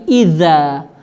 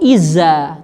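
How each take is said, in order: First: The middle consonant is a 'th' sound. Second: The middle consonant is a buzzing z sound. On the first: The speaker calls it right. "tetapi idza" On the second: The speaker calls it wrong. "bukan iza"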